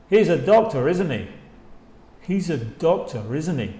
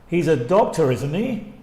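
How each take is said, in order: First: "isn't he?" dropping at the end; checking, not asking; falling tag. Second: "isn't he?" rising at the end; rising tag. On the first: Teacher drilling the falling confirming tag. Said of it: "Con la entonación se va abajo". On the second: Teacher drilling the rising question tag. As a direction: make it a real question. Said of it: "Con rising intonation". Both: Shown as a demonstration.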